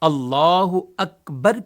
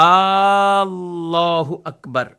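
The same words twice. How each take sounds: First: The first vowel of Allah is short. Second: The first vowel of Allah is stretched long. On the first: The speaker calls it right. "अल्लाह के शुरू के अलिफ पर वो फकत जबर है" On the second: The speaker calls it wrong. "इनको खींचते रहते"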